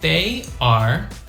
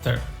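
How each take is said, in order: First: It is said as two separate full words. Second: It is squeezed into one short syllable.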